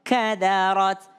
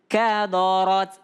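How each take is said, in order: First: The first two syllables are thin, the last thick. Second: All syllables are thick, following the heavy r. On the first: The speaker calls it right. "ka tipis, da tipis, ro tebal" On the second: The speaker calls it wrong. "Jangan kadorot, kadorot karena diikut ke ro-nya"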